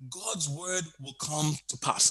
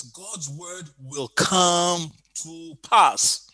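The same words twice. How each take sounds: First: Quiet declaration. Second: Very slow, drawn-out repeat; deliberate, emphatic pulpit pronouncement; weighty declaration. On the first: Slogan repeated, first softer. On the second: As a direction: stretch each word of the promise, pressing harder toward the end. Slogan repeated, slower and stronger. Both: Real, not acted.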